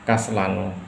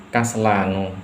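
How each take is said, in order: The two takes are said the same way.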